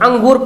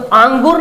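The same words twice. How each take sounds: First: The first vowel is kept short. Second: The first vowel is drawn out long. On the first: The speaker calls it right. "मतलब अलिफ को खींचकर नहीं पढ़ते" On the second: The speaker calls it wrong. "अंगूर नहीं पढ़ते हम लोग"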